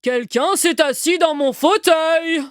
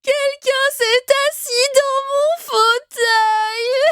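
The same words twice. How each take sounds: First: It is said in a big, deep voice. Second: It is said in a tiny, small voice.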